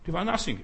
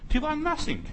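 First: Said in the usual way. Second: "nothing" said much higher, mocking; "Die waren nothing" mocked in a high, scornful voice; scornful jab. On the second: Shown as a demonstration. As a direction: toss off "nothing" in a high sneer. Scornful repeat of a phrase.

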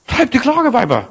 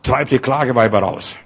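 First: Mock the wailing women with a high voice; mocking high pitch. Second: Said in the usual way. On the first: Shown as a demonstration. Preacher mocking wailing women with a high voice. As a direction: jump the voice high up on "Treib die Klageweiber". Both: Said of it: "Weißt du, was das auf Deutsch heißt?".

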